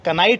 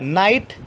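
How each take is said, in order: First: The word starts with a k sound. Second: The word starts with an n sound. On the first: The speaker calls it wrong. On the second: The speaker calls it right.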